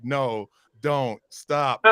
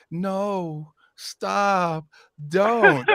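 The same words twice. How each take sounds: First: "No, don't, stop" read out plainly and briskly; matter-of-fact court reading. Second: NO, STOP, DON'T stretched long with pauses; drawn-out coy refusal. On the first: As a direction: recite "No, don't, stop" as evidence, without lingering on any word. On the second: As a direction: say "No, stop, don't" slowly, higher, each word lingering like an invitation. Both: Retold or imitated. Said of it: "When you read it like that".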